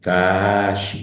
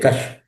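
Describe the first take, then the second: First: The consonant is held long, doubled. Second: The consonant is short, not doubled. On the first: The speaker calls it right. "tiene que geminarlo" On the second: The speaker calls it wrong. "alguien va a leer cash. No, tiene que geminarlo"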